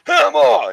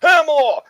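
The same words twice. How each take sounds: First: High, loud shout from the crowd. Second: High, loud shout from the crowd; dubbed fan calling out to the singer. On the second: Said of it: "he goes". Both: Retold or imitated. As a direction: yell his name from the crowd.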